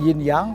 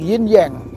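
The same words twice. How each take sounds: First: It is said with an Indonesian accent. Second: It is said with an American accent. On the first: "Kalau orang Indonesia bilang" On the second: "kalau orang bahasa orang Amerika bilang"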